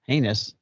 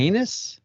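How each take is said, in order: First: Heinous said hay-nus, flat and falling; Heinous repeated as a firm statement; settled pronunciation. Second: Heinous said hay-nus with a rising, questioning tune; Heinous pronounced as a puzzled guess; wrong pronunciation. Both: Shown as a demonstration. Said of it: "it can't be heinous".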